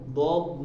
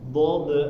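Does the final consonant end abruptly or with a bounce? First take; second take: abrupt; bounce. First: The final consonant stops abruptly without echo. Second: The final consonant bounces with an echo. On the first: The speaker calls it right. "jadi harus langsung berhenti" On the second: The speaker calls it wrong. "enggak boleh ya ketika dipantulkan"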